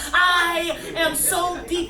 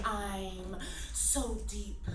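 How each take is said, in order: First: Loud, higher and slow, hammering each word; hammed-up poetry shout; shouted refrain. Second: Soft and slow, dragging out so deep; mock-profound whisper of the refrain; hushed solemn refrain. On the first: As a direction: bellow it like a slam-poem climax. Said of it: "escalating shouted refrain". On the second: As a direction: breathe it out like a sacred truth. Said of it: "this tone of voice".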